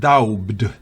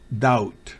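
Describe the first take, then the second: First: A b sound is heard near the end. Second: No b sound is heard at all. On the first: The speaker calls it wrong. "no es daubd" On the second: The speaker calls it right. "B es muda"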